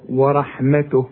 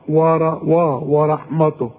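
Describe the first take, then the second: First: The t and w sound light and thin. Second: The t and w sound heavy and thick. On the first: The speaker calls it right. "رقق للتاء ورقق للواو" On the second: The speaker calls it wrong. "والته برضو تطلع معاك مش مظبوطة"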